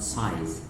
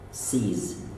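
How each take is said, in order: First: The vowel sounds like 'eye', as in size. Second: The vowel sounds like 'ee', as in see. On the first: The speaker calls it wrong. "not size" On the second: The speaker calls it right. "Sees, not size"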